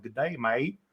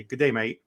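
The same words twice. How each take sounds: First: Australian greeting in a lightly put-on Southern drawl. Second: Clumsy attempt at an Australian greeting; lightly attempted Australian accent; bad Australian accent. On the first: Annoying an Australian friend with his greeting, mock Southern drawl. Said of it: "do, like, a Southern drawl". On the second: Teasing an Australian friend with his greeting, bad Australian accent. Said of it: "I hear it's horrible what I'm saying".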